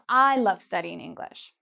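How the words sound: The stress is on the word I. "I'm really emphasizing that I am"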